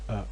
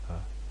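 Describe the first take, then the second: First: The vowel starts abruptly with a glottal catch. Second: The vowel starts softly with a faint breath. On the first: "Hard-on sets are created by closing the vocal cords to produce a glottal stop" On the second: "if you repeat uh with a soft onset"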